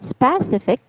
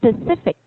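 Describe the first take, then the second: First: The stress is not on the second syllable. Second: The stress is on the second syllable. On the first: The speaker calls it wrong. "It's not specific" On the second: The speaker calls it right. "the strongest sound would be with C"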